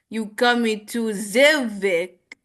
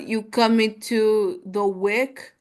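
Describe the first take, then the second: First: It is said with a French 'z' for 'th'. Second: It is said with a plain English 'th'.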